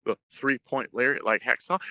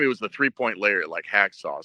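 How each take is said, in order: First: HACKSAW rising at the end like a question; unsure question. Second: Said in the usual way. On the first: Retold or imitated. Young wrestler names his finisher to his idol, questioning. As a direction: offer it tentatively, lifting "Hacksaw". Retold answer, posed as question.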